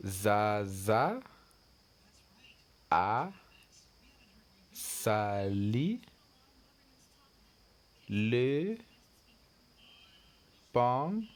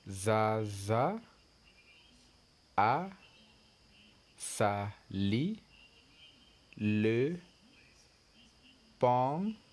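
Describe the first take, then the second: First: Zaza a sali le pantalon, each word split by a pause; word-by-word reading. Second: Zaza a sali le pantalon, each word split by a pause; word-by-word reading again. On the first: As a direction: read it slowly for the learners. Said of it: "look at the next sentence". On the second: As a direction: repeat it word by word for the class. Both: Shown as a demonstration.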